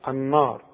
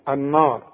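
No difference in how they are said.

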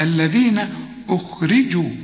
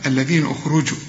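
First: The r is followed by an i vowel. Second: The r is followed by a non-i vowel. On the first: The speaker calls it right. "الراء مكسورة" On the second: The speaker calls it wrong. "لا"

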